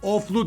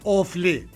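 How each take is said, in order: First: The name ends with an 'oo' vowel. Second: The name ends with an 'ee' vowel. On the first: The speaker calls it wrong. "Oflu değil" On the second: The speaker calls it right.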